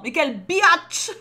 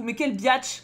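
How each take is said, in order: First: "Mais quelle biatch" drawn out slow, higher and louder, "biatch" hit hard; uncensored insult. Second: Said in the usual way. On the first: Shown as a demonstration. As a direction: spit out "biatch" slowly and loudly. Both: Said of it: "Moi, je censure pas".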